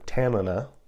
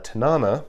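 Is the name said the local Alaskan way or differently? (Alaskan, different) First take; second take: Alaskan; different. First: It is said with the local Alaskan pronunciation. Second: It is said with a non-local pronunciation.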